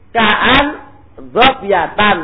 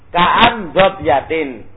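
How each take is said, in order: First: The last word ends with an -an sound. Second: The last word ends with an -in sound. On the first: The noun is the subject of ka'an with an omitted predicate. "Dibalik sekarang" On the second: The noun is in the genitive case after a preposition. "Kalau dibaca jar, kafin apa? Kaf harfu jar"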